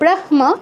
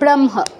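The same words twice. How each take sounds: First: The h sound comes before the m. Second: The m sound comes before the h. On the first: This follows the written order of the letters. "হওয়া উচিত ছিল ব্রহ্ম" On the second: This follows the rule that the nasal is pronounced first. "কিন্তু আমরা বলছি ব্রহ্ম, কারণ ওই নিয়মটার জন্য"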